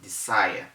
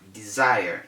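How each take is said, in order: First: The middle consonant is a hissing S sound. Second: The middle consonant is a buzzing Z sound. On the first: The speaker calls it wrong. "instead of desire" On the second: The speaker calls it right. "Then we have desire"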